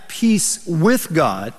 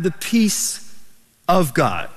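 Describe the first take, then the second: First: "with" set apart and stressed, drawn out; slow phrase, leaning on the word "with". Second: "of" set apart after a pause; stress on of. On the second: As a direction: hold "peace", pause, then land on "of God". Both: Shown as a demonstration. Contrasts two kinds of peace.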